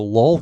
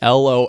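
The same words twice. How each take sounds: First: It is pronounced as a single word. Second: It is spelled out as three letters. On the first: The speaker calls it wrong. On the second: The speaker calls it right.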